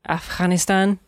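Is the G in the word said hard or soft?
soft. It has a non-American accent without a hard G. "I've tried to pronounce it Afghanistan"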